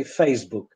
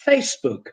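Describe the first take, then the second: First: FACEBOOK with z, FAYZ-book; Polish-style Z. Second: FACEBOOK with s, FAYSS-book; English S in FACEBOOK. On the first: Teacher quoting how Poles say it, z sound. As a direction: buzz the s in FACEBOOK. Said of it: "we in Polish say Facebook". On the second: Teacher correcting to English for learners, correct s sound. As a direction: say FACEBOOK with a hissing s. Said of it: "in English it's Facebook". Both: Shown as a demonstration.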